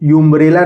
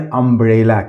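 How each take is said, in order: First: It begins with a 'yoo' sound. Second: It begins with an 'uh' sound. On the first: The speaker calls it wrong. "यूम्ब्रेला नहीं पढ़ेंगे" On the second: The speaker calls it right. "इसको पढ़ेंगे अम्ब्रेला"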